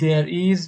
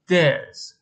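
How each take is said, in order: First: It is said as two separate full words. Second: It is said as one contracted syllable. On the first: "به جای اینکه بگیم there is" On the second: "میگیم there's"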